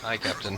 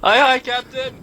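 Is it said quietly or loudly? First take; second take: quietly; loudly. First: It is said at normal, quieter volume. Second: It is said much louder.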